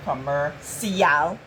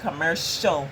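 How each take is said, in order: First: The ending is sounded as spelled, 'see-al'. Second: The ending is sounded as one syllable, 'shul'. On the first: The speaker calls it wrong. "That's actually C I A L, but we don't say commercial" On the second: The speaker calls it right. "We say commercial"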